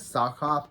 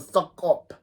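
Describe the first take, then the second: First: The first vowel sounds like the vowel in sock. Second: The first vowel sounds like the vowel in suck.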